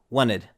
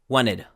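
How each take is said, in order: The two takes are said the same way.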